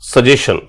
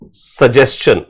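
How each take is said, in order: First: There is no 's' before the 'shun' ending. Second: An 's' is heard before the 'shun' ending. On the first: The speaker calls it wrong. "ये सजेशन नहीं होता" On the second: The speaker calls it right. "सही pronunciation क्या होता है?"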